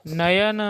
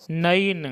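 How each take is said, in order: First: नयन with a clear y, 'na-ya-na'; तत्सम उच्चारण. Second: नयन as 'na-in', the middle a gliding ऐ; ऐ का उच्चारण. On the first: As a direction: sound out the य in नयन. (नयन को 'न-य-न' बोलें) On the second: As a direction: turn नयन into नैन with an 'a-i' glide. (नयन को 'नइन' जैसा बोलें) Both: Shown as a demonstration. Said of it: "ऐ को ऐ उच्चारण करेंगे".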